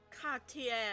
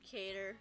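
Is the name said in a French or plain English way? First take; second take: French; English. First: The name is said in a French way. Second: The name is said in a plain English way.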